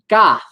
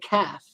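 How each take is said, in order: First: The first sound is made deep in the throat. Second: The first sound is a plain English k. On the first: The speaker calls it right. "He couldn't say the letter uh" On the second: The speaker calls it wrong. "He'd say calf"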